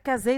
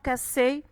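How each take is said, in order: First: The middle consonant is a buzzing Z sound. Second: The middle consonant is a hissing S sound. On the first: The speaker calls it wrong. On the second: The speaker calls it right.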